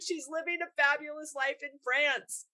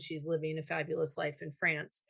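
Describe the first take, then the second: First: The tone sounds warm and admiring. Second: The tone sounds critical and disapproving. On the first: The fabulous life is something to celebrate. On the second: The fabulous life is something to resent.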